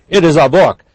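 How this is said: It is said in an angry tone.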